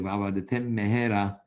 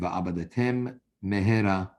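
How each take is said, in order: First: The two M sounds merge into one. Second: The two M sounds are said separately. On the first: The speaker calls it wrong. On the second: The speaker calls it right.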